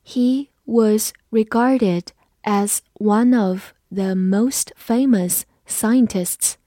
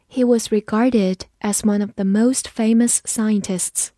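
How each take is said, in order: First: Very slow, word by word; slow read-along. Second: Said in the usual way. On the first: Shown as a demonstration. Teacher leads learners repeating after her, slow read-along. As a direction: pause after each word so learners can follow. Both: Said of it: "跟着我慢读一遍".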